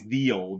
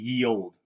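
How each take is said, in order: First: The first word begins with a TH sound. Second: The first word begins with a Y sound. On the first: The speaker calls it right. "It was always the old" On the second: The speaker calls it wrong. "it was never actually ye old"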